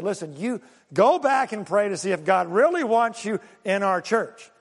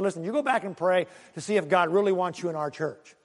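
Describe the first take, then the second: First: Firm stress on "go back" and "really"; more forceful retold preacher, punching "go back"; emphatic repeat. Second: Said in the usual way. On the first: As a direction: repeat the brush-off, leaning on "really wants you". Preacher finally repeats it firmly.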